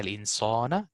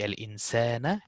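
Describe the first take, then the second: First: The long a vowel is thick and heavy. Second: The long a vowel is thin and light. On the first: The speaker calls it wrong. "It will not be" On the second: The speaker calls it right. "Sin is a simplified letter, so it will be"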